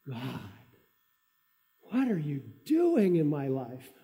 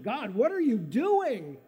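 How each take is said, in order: First: It is said with a tone of wonder. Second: It is said with a tone of astonishment.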